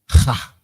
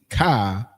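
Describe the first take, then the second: First: The syllable starts with an h sound. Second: The syllable starts with a k sound. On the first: The speaker calls it right. "we're saying ha" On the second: The speaker calls it wrong. "we're not technically saying ka"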